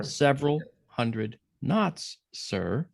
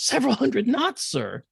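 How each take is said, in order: First: Slowly, word by word; slow emphatic repeat. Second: High, loud incredulous call; very loud report. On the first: Real, not acted. Storyteller repeating the speed for listener, slow and deliberate. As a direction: spell out "several hundred knots" with weighty pauses. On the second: Retold or imitated. Incredulous kid reporting to executive officer, high loud shout. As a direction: shout it up high, dropping on "sir". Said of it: "he said it very loud".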